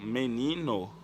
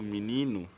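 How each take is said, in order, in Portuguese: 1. A primeira vogal é pronunciada como um E claro. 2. A primeira vogal é pronunciada como um I. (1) "Eu digo menino" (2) "mas eu pronuncio menino"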